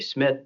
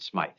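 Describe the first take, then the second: First: The vowel is short, like in 'it'. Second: The vowel is long, like in 'eye'. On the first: The speaker calls it right. "let's just say Smith" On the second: The speaker calls it wrong. "he pronounced it Smythe"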